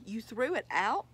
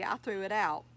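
First: Mildly incredulous question, rising at the end; disbelieving. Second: Offhand admission, plainly stated; casual. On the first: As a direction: repeat it back in disbelief. Son shocked by dad's confession. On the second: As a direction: admit it as if it were nothing. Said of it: "he answered casually". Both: A narrator's reading.

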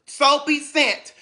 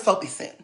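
First: Soapy Scent said slowly and carefully, each word clear; slow down and spell out Soapy Scent properly; Soapy Scent, deliberately pronounced right; correct name. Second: Sin said as a plain short sin, the wrong way; Soapy Sin, the name mispronounced without noticing. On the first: Shown as a demonstration. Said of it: "that's her name". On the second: Retold or imitated. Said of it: "That's not her name".

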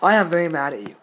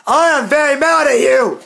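First: Lower, softer controlled anger; very mad, subdued. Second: Higher, angry raised voice; very mad. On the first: Telling the commenter off once more, subdued anger. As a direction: say you're mad, holding it down. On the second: Telling a commenter who wished friends dead, very mad. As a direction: let the anger burst out. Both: Real, not acted.

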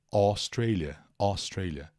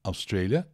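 First: Australia starting with an open O sound; open O pronunciation. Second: Australia starting with a short neutral schwa, "uh"; schwa pronunciation. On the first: Teacher showing viewers the first option for Australia, open O. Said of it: "da pronúncia é O". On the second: Teacher showing viewers the second option for Australia, initial schwa. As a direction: reduce the first vowel of Australia to a schwa. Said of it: "som do schwa". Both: Shown as a demonstration.

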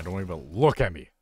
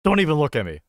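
First: Mock indignation, louder on LOOK; a little emotional. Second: High, loud mock-indignant shout; emotional outburst. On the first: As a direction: get worked up, punching the word look. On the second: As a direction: burst out much louder and higher, overly emotional. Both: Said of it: "getting a little emotional".

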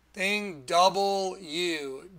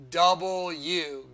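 First: "double U" drawn out slowly. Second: "double U" slowly with a falling close. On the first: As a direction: stretch "double U" slowly with a rise. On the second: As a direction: land "double U" slowly and firmly. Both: Shown as a demonstration. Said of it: "that's why they make that".

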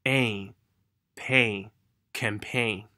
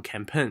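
First: "Ain, pain, campaign" built up very slowly; drawn-out build-up to "campaign"; nasal ending drill. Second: "campaign" with a short "pen" for "pain"; learner's clipped vowel in "campaign"; mispronounced ending. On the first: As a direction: stretch each "ain" into its final n. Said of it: "是那个鼻音在里面". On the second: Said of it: "有人会发成campaign". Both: Shown as a demonstration.

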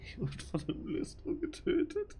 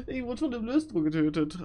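First: Laughing whisper. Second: Mock crying. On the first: Real, not acted. Lachend geflüstert, dann wiederholt. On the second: Wiederholt mit gespieltem Weinen.

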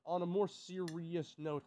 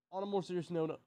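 First: "more" leaned on, slower and steadier; mock-serious emphasis on "more"; serious restart. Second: Said in the usual way. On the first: Shown as a demonstration.

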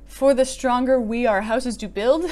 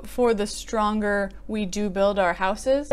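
First: Said in the usual way. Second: For the stronger we do build our houses, said slowly and evenly; smoother word order. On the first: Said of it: "funny to me about the inversion". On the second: Shown as a demonstration. Correcting the poem's inversion, slow and even. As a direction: ease through the fixed line, unhurried. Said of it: "as opposed to".

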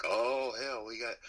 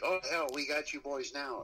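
First: A light upstate New York redneck drawl, pitched up; half-hearted upstate New York redneck cop voice; mock upstate New York redneck cop. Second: Put-on higher, gloating upstate New York redneck accent; hammed-up upstate New York redneck cop taunting the band; mock upstate New York redneck cop. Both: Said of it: "whatever the fuck it sounds like when they say it".

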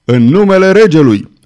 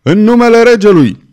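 First: Loud, commanding shout at the door; officer's shout. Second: Much higher, very loud, strained shout; louder second shout. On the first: Officer demanding entry at the rebels' door, loud shout. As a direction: pound the door and call out in the king's name. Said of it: "bătu cu putere strigând". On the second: Officer shouting once more at the closed window, full bellow. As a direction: bellow it as the last warning before the ram. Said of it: "ofițerul mai striga odată". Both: A narrator's reading.

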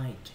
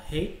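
First: "height" said as "hite", rhyming with "kite"; "height" with the "eye" vowel and a final t; correct pronunciation. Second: "height" said the wrong way, vowel like "hey"; "height" with an "ay" vowel and no clear final t, as the mistake; wrong pronunciation. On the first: Teacher showing students the right way to say "height". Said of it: "mà đọc là height". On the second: Teacher showing students how not to say "height". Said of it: "các em chú ý không đọc là height". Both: Shown as a demonstration.

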